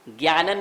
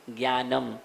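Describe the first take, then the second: First: ज्ञानन ending on n; wrong ending. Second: ज्ञानम closed on a clear m; correct ending. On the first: Teacher showing what is not said, wrong ending. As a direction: close ज्ञानन on n instead of m. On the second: Teacher correcting the n ending, correct ending. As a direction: shut the lips on the m of ज्ञानम. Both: Shown as a demonstration. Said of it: "ज्ञानन नहीं बोलते हैं".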